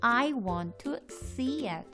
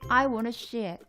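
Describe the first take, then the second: First: The word 'see' starts with a clear s sound. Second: The word 'see' starts with an sh-like sound. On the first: The speaker calls it right. "입을 양쪽으로 넓게 펼치면서 발음을 신경 써서" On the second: The speaker calls it wrong. "신경 쓰지 않으면 약간 쉬에 가까운 S 발음이 납니다"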